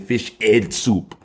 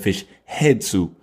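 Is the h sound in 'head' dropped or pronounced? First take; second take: dropped; pronounced. First: The word 'head' is said without its h sound. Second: The word 'head' is said with its h sound.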